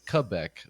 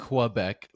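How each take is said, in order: First: It is said with a local French pronunciation. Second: It is said with an American English pronunciation. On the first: "the local way to say it or the proper way to say it" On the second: "people in America would say like"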